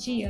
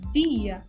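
First: The d has the open, usual Brazilian sound. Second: The d has the closed sound, gaúcho style. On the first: "nós pronunciamos dia" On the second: "Já o gaúcho vai dizer como?"

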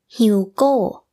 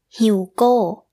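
First: The final syllable is stressed with a falling tone. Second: The same.

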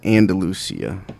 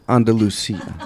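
First: It is said with a Texan twang. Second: It is said with a Spanish-sounding pronunciation. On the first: "my Texas will come out and I'll say Andalusia" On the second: "You're a natural at Spanish"

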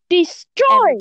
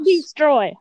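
First: The D sound is pronounced crisply and clearly. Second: The D sound is weak and barely pronounced. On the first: The speaker calls it right. "you have to enunciate the D and destroy" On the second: The speaker calls it wrong. "not destroy"

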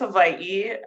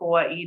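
First: The word is said with its traditional island pronunciation. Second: The word is said with the mainland English pronunciation. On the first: This is the technically correct form. The speaker calls it right. "Technically, it's Hawaii" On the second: This is the form used on the continent. The speaker calls it wrong. "I interchanged with Hawaii just because I did live on the continent"

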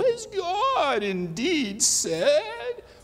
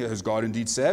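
First: It is said in a sinister, evil voice. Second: It is said in a plain, ordinary voice. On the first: The lie openly sounds wicked. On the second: The lie sounds like an innocent question.

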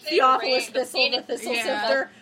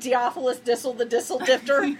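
First: The th sounds are said as th. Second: The th sounds are replaced by d.

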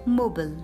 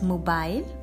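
First: It is said with an American English pronunciation. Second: It is said with a British English pronunciation. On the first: "in American English, we pronounce it as" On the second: "in British English, we pronounce it as"

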